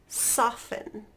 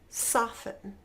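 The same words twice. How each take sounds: No difference in how they are said.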